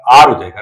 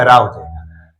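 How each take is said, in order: First: आर said as ar, the a vowel before the r; the right form, आर with the vowel first; corrected to ar. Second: रा said as a single open syllable ra; first say it the wrong way, रा; wrong form ra. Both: Shown as a demonstration. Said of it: "रा नहीं आर".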